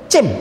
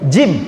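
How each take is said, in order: First: It starts with a ch sound. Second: It starts with a j sound. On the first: This is how Turkish speakers say it. The speaker calls it wrong. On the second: This is the proper Arabic letter name. The speaker calls it right.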